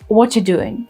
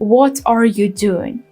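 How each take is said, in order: First: The word 'are' is dropped in fast speech. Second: Every word including 'are' is pronounced.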